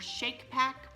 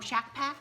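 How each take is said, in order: First: The first word has a long vowel, like 'cake'. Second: The first word has a short vowel, like 'cat'. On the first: This is another way it may be said. "or Shake Pack" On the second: This is how the speaker says it. "I pronounce it Shack Pack"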